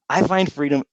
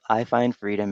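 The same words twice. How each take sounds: First: It is said with excited, intense conviction. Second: It is said flatly, without conviction. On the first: The speaker truly believes it. The speaker calls it right. "if you say it like you believe it" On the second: The speaker does not really believe it. The speaker calls it wrong. "if you say it like I'm I find freedom every day"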